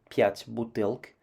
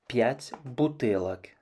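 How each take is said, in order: First: The word ends in a consonant cluster, no vowel. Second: An o vowel splits the final consonants. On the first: The speaker calls it wrong. "ne fera pas son génitif pluriel en бутылк" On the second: The speaker calls it right. "mais dites plutôt пять бутылок"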